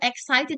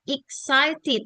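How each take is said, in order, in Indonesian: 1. Kata itu diawali dengan vokal e. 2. Kata itu diawali dengan vokal i. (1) "kalau misalnya ada e di awal, bacanya bukan excited" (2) "Dari bacanya itu i"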